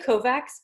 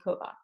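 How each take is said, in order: First: The surname is pronounced the English way. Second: The surname is pronounced the Hungarian way. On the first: This is how the speaker, born here, says it. "I say Kovacs because I was born here" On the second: This is how Hungarian relatives say it. "my Hungarian uh, relatives would say Kovac"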